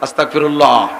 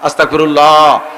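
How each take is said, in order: First: The word is said short and quick. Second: The word is drawn out a little longer.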